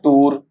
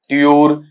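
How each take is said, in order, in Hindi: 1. यह 'toor' जैसा सुनाई देता है, अंत में r के साथ। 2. यह 'tyoor' जैसा सुनाई देता है, y की ध्वनि के साथ। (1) "दोनों ही गलत है" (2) "दोनों ही गलत है"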